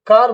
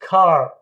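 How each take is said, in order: First: Said in the usual way. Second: "कार" as a long kaah, no R; aspirated K, open vowel in "कार"; silent R. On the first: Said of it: "आर को एकदम openly pronounce करते हैं". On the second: Shown as a demonstration. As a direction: drop the final R of "कार". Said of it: "आर को openly इसमें pronounce नहीं करना है".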